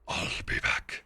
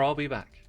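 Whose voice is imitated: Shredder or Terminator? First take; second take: Shredder; Terminator. First: It is said in a Shredder impression. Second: It is said in a Terminator impression.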